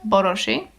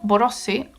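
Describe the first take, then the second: First: The name is said the original Hungarian way. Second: The name is said the everyday, non-Hungarian way.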